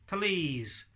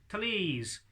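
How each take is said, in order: Both takes have the same delivery.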